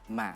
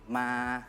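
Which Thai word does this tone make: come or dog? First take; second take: dog; come. First: It is said with the tone meaning dog. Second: It is said with the tone meaning come. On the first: It means a dog. "if you want to say a dog, we we we have to say like ma" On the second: It means to come. "if you want to say come to come, we can say ma"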